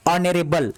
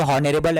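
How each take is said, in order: First: ऑनरेबल beginning on the vowel, no H; correct, silent H. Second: हॉनरेबल with an audible H at the start; wrong, H sounded. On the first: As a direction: drop the H and say ऑनरेबल. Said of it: "इसको हम क्या पढ़ेंगे". (ऑनरेबल, बिना ह की आवाज़ के) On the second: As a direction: misread it as हॉनरेबल, H and all. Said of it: "ये तो हॉनरेबल है, नहीं". (हॉनरेबल में ह बोलकर गलत उच्चारण) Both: Shown as a demonstration.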